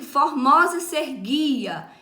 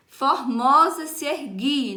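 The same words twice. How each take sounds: First: Formosa se erguia, louder, leaning on mo and gui; stressed verse reading. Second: Formosa se erguia slowly and louder, punching mo and gui; slow stressed reading. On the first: Teacher showing students the stressed syllables, louder. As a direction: read formosa se erguia with the beat marked. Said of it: "duas sílabas se sobrepõem". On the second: Teacher scanning the verse rhythm for the class, slowly. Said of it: "o mo e o gui são as for". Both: Shown as a demonstration.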